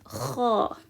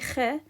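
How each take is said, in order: First: The vowel is full, like in father. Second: The vowel is flat, like in dad. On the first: The speaker calls it right. "I say kha, like the A in father" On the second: The speaker calls it wrong. "I don't say kha"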